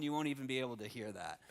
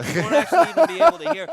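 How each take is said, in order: First: Said in the usual way. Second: Very high, loud, hurried squeal; comically squeaky and rushed; dog-whistle high tone. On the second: Pretend. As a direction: push the words up toward dog-whistle pitch. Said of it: "It'll be so high tone".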